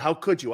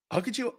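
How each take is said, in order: First: Said in the usual way. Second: Mock-shocked, pitched up with a rise; exaggerated dismay. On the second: Shown as a demonstration. Host mocking how he didn't confront GM, mock-shocked. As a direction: ham up the outrage, then take it back. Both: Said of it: "I mean, I didn't say it like that".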